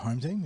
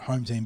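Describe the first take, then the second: First: It is said with a marked, knowing inflection. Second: It is said plainly, with no special inflection. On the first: It means the team that truly owns the ground. "with inflection" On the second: It means the team simply playing at home. "not home team"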